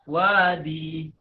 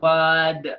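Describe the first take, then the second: First: The word ends with an added long 'ee' vowel. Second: The word ends sharply on the 'd' consonant. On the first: "berwakaf pada dal dengan menambah ya" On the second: "berwakaf pada dal tanpa menambahnya"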